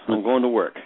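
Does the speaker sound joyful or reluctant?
reluctant. It is said in a dreary, reluctant way. Going to work is something one has to do. The speaker calls it wrong. "or you can say that with, yeah"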